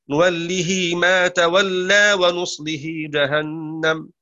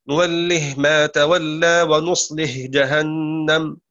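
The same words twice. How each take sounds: First: نوله extended into nuwallihi with a long final i; Hafs reading. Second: نوله said with short final ه, no added vowel; Shu'ba reading. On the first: Teacher demonstrates Hafs joining the ه of نوله. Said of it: "حفص يصلها". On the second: Teacher demonstrates Shu'ba's نوله without extension. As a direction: stop the ه of نوله short, nuwallih. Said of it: "نوله ونصله". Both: Shown as a demonstration.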